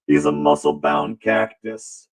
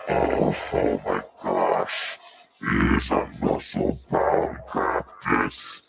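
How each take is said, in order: First: Said in the usual way. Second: Much lower, slow and gravelly-free boom; low slow strongman voice; deep muscle voice. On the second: Acted. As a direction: voice the beefy cactus low and slow.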